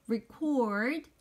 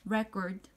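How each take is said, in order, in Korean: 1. 동사 발음으로 되어 있어요. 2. 명사 발음으로 되어 있어요. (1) "녹음하다는 record 발음이고요" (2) "녹음이라고 하는 명사는 record 좀 발음이 다르죠"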